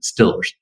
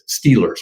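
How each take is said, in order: First: It is said in a local Pittsburgh pronunciation. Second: It is said in a standard, non-local pronunciation.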